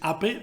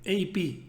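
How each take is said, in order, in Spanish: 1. Las letras se nombran con nombres de letras en español. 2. Las letras se nombran con nombres de letras en inglés. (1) "Si lo dices A P, probablemente no te vayan a entender" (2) "A P en inglés"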